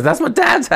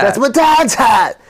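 First: Put-on much higher, whining little kid; whiny kid voice. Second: Put-on higher, louder whiny kid echo; repeating the friend's whiny kid line, higher and louder; copying the whiny kid. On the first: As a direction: whine it like a hurt child protecting his dad's hat. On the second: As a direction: mimic the kid's whine back. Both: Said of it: "He really says".

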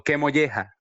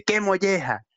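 First: Said in the usual way. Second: Pitched up, quoting the little son; child repeating it. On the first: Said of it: "A veces le digo". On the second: Retold or imitated. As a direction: mimic the kid copying his dad. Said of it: "me lo repite". (el hijo repitiendo la frase con voz más aguda)

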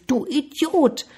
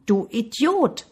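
First: High-pitched annoyed storybook cry; annoyed call. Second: Slow, higher-pitched echoed insult. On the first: Boy feels mocked by the voice, annoyed high call. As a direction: call the insult out, higher, mildly cross. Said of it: "Der Junge war verärgert". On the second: Mountain returns the boy's insult, slow echo. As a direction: draw it out like an answering echo. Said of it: "Die Stimme ließ nicht lange auf sich warten". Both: A narrator's reading.

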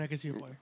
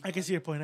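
First: Quiet grudging mutter; softer muttered repeat. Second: Said in the usual way. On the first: Shown as a demonstration. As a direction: say I can see your point again, much lower and quieter. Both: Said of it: "repeats the line softer".

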